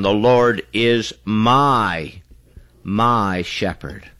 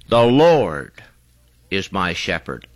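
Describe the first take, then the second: First: The stress is on "my". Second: The stress is on "Lord".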